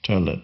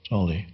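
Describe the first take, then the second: First: The first vowel is a rounded German ö sound. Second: The first vowel is a plain English o sound. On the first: This is the original German form of the name. "in the original German ... should be pronounced Tölle" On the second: This is the anglicized form of the name. "usually I use the an anglicized form of pronunciation"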